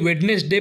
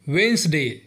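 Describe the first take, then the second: First: The middle syllable is fully pronounced. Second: The middle syllable is dropped. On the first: The speaker calls it wrong. "कई लोग इसे वेडनेसडे pronounce करते हैं, जो कि गलत है।" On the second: The speaker calls it right. "इसका सही प्रोनाउंसिएशन है वेंसडे।"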